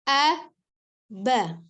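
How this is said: There is a pause between the two syllables. "boleh dijeda"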